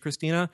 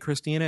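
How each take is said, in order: First: The name begins with a ch sound. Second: The name begins with a k sound. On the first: "and not CH Christina" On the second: "it's fucking K Christina"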